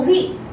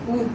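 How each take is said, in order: First: The vowel glides, changing quality as it is said. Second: The vowel holds one steady quality throughout. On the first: "변하네" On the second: "고정하고서 발음해야 됩니다"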